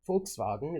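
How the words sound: The word is pronounced the German way. "Volkswagen is how you pronounce it in German"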